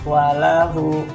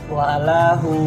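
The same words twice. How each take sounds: Both takes have the same delivery.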